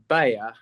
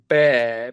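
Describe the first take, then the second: First: It is said in the speaker's own accent. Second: It is said in the listeners' accent.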